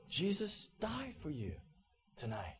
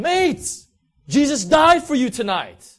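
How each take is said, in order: First: Quietly weighted, with pauses; hushed recollection. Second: Very loud, high-pitched call across a crowd; full-voiced yell of good news; shouted proclamation. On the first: Retold or imitated. Shouted words recalled as piercing. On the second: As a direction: bellow it out to everyone on the street. Friend repeats shout to crowd.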